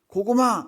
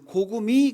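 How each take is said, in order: First: The final vowel is an open 'a' sound. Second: The final vowel is a close 'i' sound. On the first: This is the correct password. The speaker calls it right. "고구마 이래야 되는데" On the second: The speaker cannot pronounce the 'a' vowel. The speaker calls it wrong. "아 발음을 못해요. 그래서 고구미 그랬어요"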